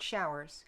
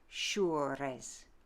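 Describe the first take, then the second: First: It has a modern vowel and plain R. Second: It has a French vowel and rolled R. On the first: The speaker calls it wrong. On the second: The speaker calls it right.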